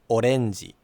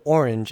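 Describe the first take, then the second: First: It is said with Japanese sounds. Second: It is said with English sounds. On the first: "versus orenji" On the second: "the word orange in English"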